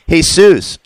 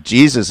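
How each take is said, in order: First: "Jesus" said the Spanish way, hey-SOOS; higher, drawn-out Spanish "Jesus", hey-SOOS; Spanish pronunciation. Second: Said in the usual way. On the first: Shown as a demonstration. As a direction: start "Jesus" with an h and stress the end, hey-SOOS. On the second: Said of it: "it's not Jesus".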